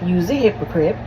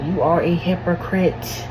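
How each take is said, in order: First: The verb is reduced to a short 'you's'. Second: The verb is said in full as 'you are'. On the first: The speaker calls it wrong. "I'm aware I'm saying it wrong" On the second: The speaker calls it right. "I will say it right just so you know"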